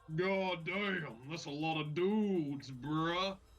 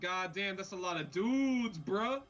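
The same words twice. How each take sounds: First: It is said in a much deeper voice. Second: It is said in a higher, normal voice.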